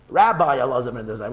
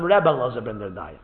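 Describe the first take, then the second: First: "Rabbi" stressed on the first syllable, English style. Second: "Rebbe" the Yiddish way, not Rabbi. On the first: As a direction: say "Rabbi" as RAB-bye, with the English ai at the end. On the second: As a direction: say "Rebbe" as REB-beh, with a short e. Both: Shown as a demonstration. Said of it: "The Alter Rebbe calls him".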